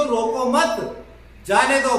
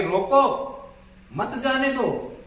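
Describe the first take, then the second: First: "रोको मत" joined and high, pause, then "जाने दो"; pause after मत. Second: "रोको" rising, pause, then higher "मत जाने दो" falling; pause after रोको. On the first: Teacher explaining he must not be stopped, pause after मत. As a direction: join "मत" to "रोको", break, then louder falling "जाने दो". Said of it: "भाई, रोकना नहीं है". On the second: Teacher explaining the speaker means stop him, pause after रोको. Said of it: "कहने वाला ये कह रहा है कि". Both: Shown as a demonstration.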